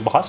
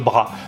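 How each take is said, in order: First: The final S sound is pronounced. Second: The final S sound is silent. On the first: This is how it is said locally. "on prononce le S" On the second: This is how it is said further north. "plus on monte dans le nord"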